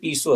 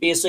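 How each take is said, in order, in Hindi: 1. पहला स्वर लंबी 'ee' ध्वनि है। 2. पहला स्वर छोटी 'e' ध्वनि है। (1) "हिंदी में पीसो है" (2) "पेसो इंग्लिश में बोला जाता है"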